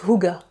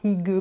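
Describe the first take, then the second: First: It is said with two syllables, like 'hoo-ga'. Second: It is said as spelled, like 'hig'. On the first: The speaker calls it right. "Ça se prononce Huga" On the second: The speaker calls it wrong. "c'est pas Higue comme c'est écrit ici"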